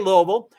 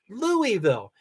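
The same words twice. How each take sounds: First: The name is said with two syllables. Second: The name is said with three syllables. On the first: This is how the locals say it. The speaker calls it wrong. "we say Louisville" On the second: This is the dictionary pronunciation. The speaker calls it right. "it's pronounced Louisville"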